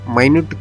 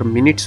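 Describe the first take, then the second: First: The first syllable sounds like 'my'. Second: The first syllable sounds like 'min'. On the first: It means something very small. "इसी शब्द का उच्चार माइन्यूट कर दे तो इसका मतलब होता है छोटी चीज" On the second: It refers to a unit of time. "M I N U T S का उच्चार मिनट्स होता है तो टाइम दिखाने के लिए"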